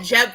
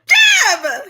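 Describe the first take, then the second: First: The name is said plainly, without extra energy. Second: The name is exclaimed loudly with lively energy. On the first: The speaker calls it wrong. "You mispronounced it" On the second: The speaker calls it right. "Love the energy"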